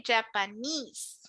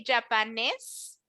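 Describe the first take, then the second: First: Japanese ending in a long ee and z, japa-neez. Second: Japanese ending in a short s, japa-nis; clipped wrong end on Japanese. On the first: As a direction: stretch the final ee in Japanese. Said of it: "careful with this E here". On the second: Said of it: "We don't say Japanese". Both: Shown as a demonstration.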